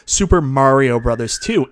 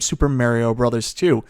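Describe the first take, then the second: First: It is said in an American-style accent. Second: It is said in a Newfoundland accent.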